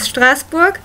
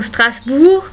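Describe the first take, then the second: First: It is pronounced with German sounds. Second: It is pronounced with French sounds. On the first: "the German pronunci- pronunciation is" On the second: "like they say there"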